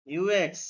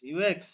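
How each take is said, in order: First: ইউ x said as letter names with ইউ stressed and the tune falling at the end; plain falling read of ইউ x. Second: ইউ x said with ইউ stressed and the tune lifting upward at the end; ইউ x with a rising finish. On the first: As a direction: say ইউ x like a statement, dropping at the end. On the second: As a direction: lift ইউ x at the end like a question. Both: Shown as a demonstration.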